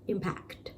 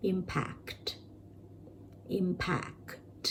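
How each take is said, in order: First: Impact said quickly, as in a sentence; natural. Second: Impact with an exaggerated, drawn-out final ct; exaggerated teaching version of impact. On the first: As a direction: say impact naturally, with the ct ending kept light. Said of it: "ในประโยคอาจจะเหลือแค่ impact". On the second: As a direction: overdo the ct ending of impact so it is clearly heard. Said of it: "อันนี้คือแบบ exaggerated version". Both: Shown as a demonstration.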